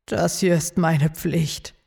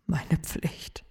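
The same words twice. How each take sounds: First: Said in the usual way. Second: Whispered repeat of "Meine Pflicht", soft and breathy on "Meine". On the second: Acted.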